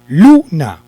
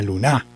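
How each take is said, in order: First: The stress is on the first syllable. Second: The stress is on the last syllable. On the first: The speaker calls it right. "si lo llevara en la sílaba lu" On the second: The speaker calls it wrong. "vamos a hacer de cuenta que lo llevara en la a"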